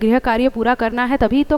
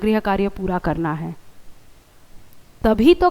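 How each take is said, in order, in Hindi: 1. दोनों वाक्यांश बिना विराम के एक साथ चलते हैं। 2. एक विराम दोनों वाक्यांशों को अलग करता है। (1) "अगर आप दोनों सेंटेंस को एक साथ बोल दोगे तो सेंटेंस का सस्पेंस खत्म हो जाएगा" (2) "इस बात पर जोर देना चाहते हैं, तो आप ऐसे बोलेंगे"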